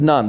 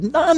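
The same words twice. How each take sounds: First: Short falling answer; firm confirmation. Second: High-pitched rising echo of disbelief; incredulous question. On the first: Discouraged pastor answering his bishop, resigned confirmation. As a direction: confirm it with a final drop. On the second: Astonished bishop questioning the pastor, incredulous. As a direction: ask it back, shooting up in pitch. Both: Retold or imitated.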